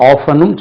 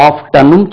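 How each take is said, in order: First: Often-ம் said OFF-un-um, no T; silent T. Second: Often-ம் said OF-tun-um, T sounded; T pronounced. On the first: Teacher sums up both options, often-ம் with silent T. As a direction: drop the T in often-ம். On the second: Teacher sums up both options, often-ம் with audible T. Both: Shown as a demonstration. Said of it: "often-ம் சொல்லலாம்".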